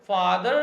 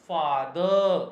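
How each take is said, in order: First: It is said in an American accent. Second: It is said in a British accent.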